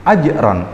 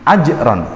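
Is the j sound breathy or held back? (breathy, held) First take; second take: held; held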